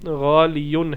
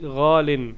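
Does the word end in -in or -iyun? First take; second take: -iyun; -in. First: The word ends in -iyun with a y sound. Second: The word ends in a short -in. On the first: This is the underlying original form. "गालियुन है" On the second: This is the form actually used. "ये बेसिकली गालिन नहीं है"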